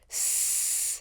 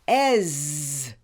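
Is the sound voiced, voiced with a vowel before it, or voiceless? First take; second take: voiceless; vowel plus voiced. First: A hissing sound with no voice. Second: A short vowel followed by a buzzing sound. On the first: "pronounced with no voice" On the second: "pronounced with a short vowel E and a voice"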